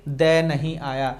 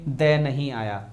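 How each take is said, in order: Both takes have the same delivery.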